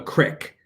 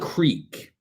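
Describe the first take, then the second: First: The vowel is a short i sound. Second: The vowel is a long ee sound. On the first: The speaker calls it wrong. "Who the fuck calls it a crick?" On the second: The speaker calls it right. "It's called a creek because it has two E's"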